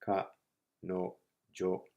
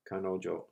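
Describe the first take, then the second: First: "ka, no, jo" in separate, level beats; syllable by syllable. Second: Said in the usual way. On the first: Shown as a demonstration. Teacher breaks the Japanese word down for learners, syllable by syllable. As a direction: say "ka, no, jo" one syllable at a time, pausing after each. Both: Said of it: "Looking carefully, it's ka".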